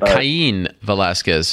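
The name is said with Mexican Spanish pronunciation.

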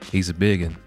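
A mild, subdued Southern accent is used. This is how local people really talk. The speaker calls it right. "If you take it down about 30%, that's right... it's just kind of more subdued"

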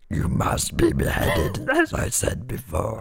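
It is said in a put-on growly voice.

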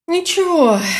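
It is said in a weary, resigned tone.

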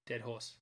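It is spoken in an Australian accent. "As an Australian, I say dead horse"

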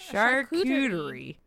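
It is said with an American accent. "that's like us saying it as like Americans"

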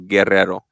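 The R sounds are rolled, Spanish style. The speaker calls it right. "It's a hard roll on the first because it's two R's, and then a soft roll on the back"

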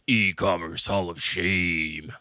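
It is said in a special put-on voice.

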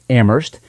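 It is said with the Massachusetts pronunciation. This is how locals in Massachusetts say it. "In Massachusetts, they pronounce it Amherst"

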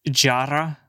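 It is said with an Arabic pronunciation. "in Arabic, it's jarra"

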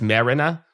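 It is said with a strong Long Island accent. The speaker calls it wrong. "It's marina"

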